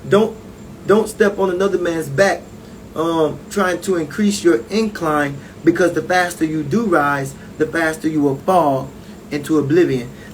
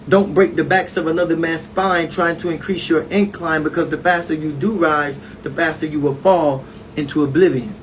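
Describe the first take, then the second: First: It is said slowly. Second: It is said at normal speed.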